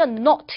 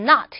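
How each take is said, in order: First: It is said with a British accent. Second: It is said with an American accent. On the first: "영국이나 이제 호주 사람들 보시면은요, not 이렇게 하는 발음" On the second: "미국 사람들은 not 이렇게 발음 많이 할 거고요"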